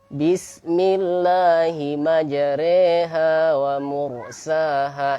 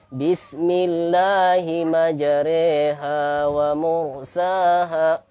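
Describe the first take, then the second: The two takes are said the same way.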